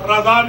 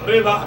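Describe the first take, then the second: First: The first vowel sounds like 'a'. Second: The first vowel sounds like 'e'. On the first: The speaker calls it wrong. "रजा नहीं" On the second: The speaker calls it right. "बल्कि रेजा है"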